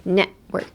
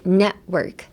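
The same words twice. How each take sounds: First: It is said in English with an unreleased t. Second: The same.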